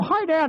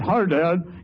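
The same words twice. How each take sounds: First: It is said in a normal voice. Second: It is said in a put-on low voice.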